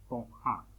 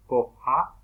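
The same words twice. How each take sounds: First: "cojá" with the final á through the nose; nasal vowel. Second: Said in the usual way. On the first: Shown as a demonstration. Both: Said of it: "la vocal suena por la nariz".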